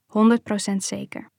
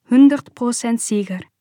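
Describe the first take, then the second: First: Said in the usual way. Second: Quoted in German, firm and a little louder; "Honderd procent zeker" said in German, as "Hundert Prozent sicher"; mother's emphatic answer in German. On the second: A narrator's reading. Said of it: "Mijn moeder antwoordde".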